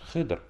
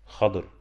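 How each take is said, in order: First: The name is said with one short vowel. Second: The name is said with two vowels, a then i. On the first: This is the commonly heard form. "Мы часто привыкли слышать как хыдр" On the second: This is the more correct form. "более правильно Аллаху алим хадыр. Бифатхиль ха ва кесрит бад"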